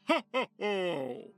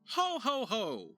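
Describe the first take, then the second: First: It is a deep belly laugh from the gut. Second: It is said in an ordinary speaking voice. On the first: "I went more in the throat area and in the belly gut" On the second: "normal voice"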